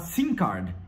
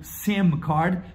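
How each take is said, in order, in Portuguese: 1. SIM termina em vogal nasal, com os lábios abertos. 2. SIM termina com os lábios fechados. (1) "se você falar errado" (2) "e não SIM card"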